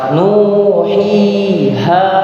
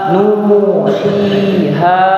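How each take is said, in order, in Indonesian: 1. Vokalnya dibaca panjang, selama dua ketukan. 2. Vokalnya dibaca panjang, selama dua ketukan.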